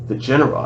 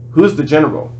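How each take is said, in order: First: A hint of a French accent; lightly imitated French accent. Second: Said in the usual way. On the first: A narrator's reading. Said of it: "I said it with a French accent". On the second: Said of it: "I mean".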